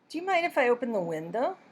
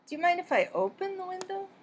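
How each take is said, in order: First: The word open carries no special stress. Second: The word open carries strong stress. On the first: It is a first request. "simply a first request" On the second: It is a repeated request. "changed the emphasis to open"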